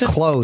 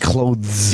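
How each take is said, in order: First: The th sound is dropped from the word. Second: The th sound is clearly pronounced in the word. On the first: The speaker calls it right. "How do you say clothes?" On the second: The speaker calls it wrong. "You don't say clothes"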